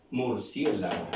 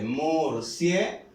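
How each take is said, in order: First: Said in the usual way. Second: "Murciélago" stretched as mur, CIÉ, la, go; "Murciélago" sounded out piece by piece; syllable by syllable. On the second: Shown as a demonstration. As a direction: break "Murciélago" into slow syllables, leaning on CIÉ. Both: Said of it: "Vamos a ver dónde suena más fuerte".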